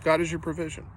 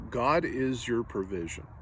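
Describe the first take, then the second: First: "God" pitched higher and punched; a raised, insistent restatement; emphatic repeat. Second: "God" drawn out, slow and deliberate with a falling end; measured, unhurried first statement. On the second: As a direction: lay down "God is your provision" slowly. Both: Shown as a demonstration.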